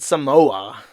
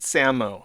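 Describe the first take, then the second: First: The name is said the English way. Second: The name is said the native Samoan way. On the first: This is how English speakers say it. The speaker calls it wrong. "I guess that's the English pronoun" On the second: This is how the islanders themselves say it. The speaker calls it right. "That's how the Samo people pronounce their name"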